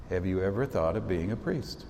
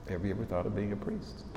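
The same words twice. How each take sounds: First: Said in the usual way. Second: The same question again, softer and quicker, stress on "ever"; quiet, quicker repeat of the question to the seniors; quieter repeat. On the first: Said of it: "repeated softer". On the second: Shown as a demonstration. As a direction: let it sink in, softer and faster. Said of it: "repeated question".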